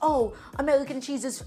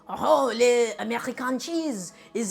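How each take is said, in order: First: It is said in his own accent. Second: It is said in a put-on French accent.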